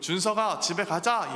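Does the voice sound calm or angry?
calm. The voice sounds calm and gentle.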